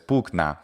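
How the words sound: It uses the restored classical Latin pronunciation. "closer to the restored classical pronunciation"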